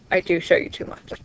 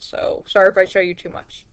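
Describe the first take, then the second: First: Soft unvoiced whisper to herself; whispered aside. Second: Said in the usual way. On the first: Real, not acted. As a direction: breathe it out as a sheepish aside. Whispered aside after seeing screen.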